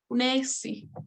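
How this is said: It is said with a clear s sound before the i. This is the southern way of saying it. "en el sur más, quizás más abierta, más clara"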